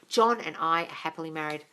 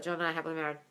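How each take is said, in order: First: It is said with conviction, like telling a friend. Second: It is said flatly and mechanically, like a robot.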